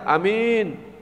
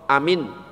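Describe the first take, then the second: First: The second syllable is drawn out long. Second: The second syllable is said short. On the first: It means honest. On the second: It means safe.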